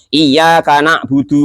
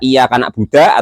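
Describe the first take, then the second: First: The last word ends with an u vowel. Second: The last word ends with an a vowel. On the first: The speaker calls it right. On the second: The speaker calls it wrong.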